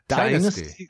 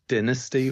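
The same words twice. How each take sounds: First: The word is said the American way. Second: The word is said the British way. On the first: "the TV show was Dynasty to a lot of people" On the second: "It is meant to be pronounced Dynasty over here"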